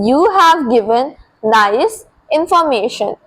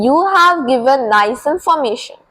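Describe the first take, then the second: First: Slow, with pauses before and after "nice"; word-group dictation. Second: Said in the usual way. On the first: Shown as a demonstration. Teacher repeating the corrected sentence for learners, slow and segmented. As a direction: set "nice" apart, pausing on both sides. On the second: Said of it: "You should simply say".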